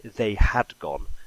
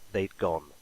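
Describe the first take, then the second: First: The word had is said in full. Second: The word had is shortened to 'd. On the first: The speaker calls it wrong. "we don't say they had gone" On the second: The speaker calls it right. "we're more likely to say they'd gone"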